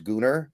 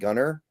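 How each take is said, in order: First: The last syllable sounds like 'ar'. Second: The last syllable sounds like 'er'. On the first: The speaker calls it right. "it is pronounced Gunnar" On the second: The speaker calls it wrong. "It's not Gunner because it's spelled with an A"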